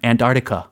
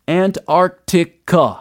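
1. 소리를 줄여서 빠르게 말했어요. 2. 모든 음절을 천천히 또박또박 발음했어요. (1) "미국 사람들이 이거 빨리 할 때 ... 대충 해요" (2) "아주 또박또박 발음을 해주셨습니다"

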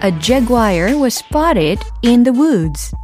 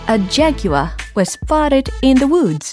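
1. 미국식 억양으로 말해요. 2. 영국식 억양으로 말해요. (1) "미국 발음 버전 들어가겠습니다" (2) "이번엔 영국식"

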